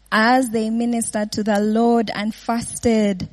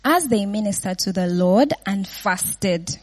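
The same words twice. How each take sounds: First: Slow, each word weighed; slow emphatic rereading. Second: Said in the usual way. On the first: Shown as a demonstration. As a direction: read the verse again slowly so it sinks in.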